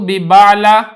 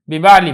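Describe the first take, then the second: First: The word ends with an 'a' vowel. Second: The word ends with an 'i' vowel. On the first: The speaker calls it wrong. "बिबाला नहीं" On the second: The speaker calls it right.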